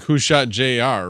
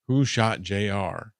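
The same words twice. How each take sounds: First: Slow, raised mock question; quoting a friend. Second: Said in the usual way. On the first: Friend's question quoted slowly and mockingly. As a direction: toss out the old TV catchphrase slowly. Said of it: "Hyrule Farm says, or was like". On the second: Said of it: "back in the seventies".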